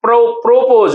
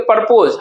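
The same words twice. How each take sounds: First: प्रोपोज with a clear long "pro"; प्रोपोज carefully, "pro" not "par"; corrected pronunciation. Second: प्रपोज as "par-poz", short first syllable; the common "parpoz" version of प्रपोज; everyday mispronunciation. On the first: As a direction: start on "pro", then give प्रोपोज in full. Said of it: "actually में क्या होता है". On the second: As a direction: say प्रपोज loosely, with "par" for "pro". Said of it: "हम लोग कहते हैं". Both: Shown as a demonstration.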